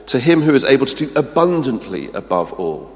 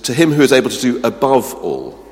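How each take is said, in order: First: "him" high and loud, "abundantly" stressed; stronger emphasis. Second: "him" and "above" pushed up and loud; second step of the emphatic build; building emphasis. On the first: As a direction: lean harder, stack "abundantly" on. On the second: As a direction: climb a step higher on "above all". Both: Shown as a demonstration. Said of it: "four levels of verbal redundancy".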